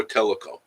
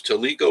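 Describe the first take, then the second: First: "Teleco" said TELL-uh-ko; first-syllable stress. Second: "Teleco" said tuh-LEE-ko; second-syllable stress. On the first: Streamer offering the alternative to viewers, TELL-uh-ko pronunciation. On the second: Streamer asking viewers which to use, tuh-LEE-ko pronunciation. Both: Shown as a demonstration. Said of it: "Which one should I use".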